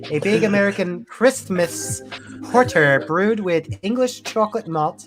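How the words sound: It is read in a put-on lisping voice.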